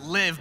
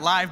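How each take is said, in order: First: The vowel is short, rhyming with give. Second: The vowel is long, rhyming with five. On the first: It is a command to live. The speaker calls it right. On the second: It describes something happening live. The speaker calls it wrong.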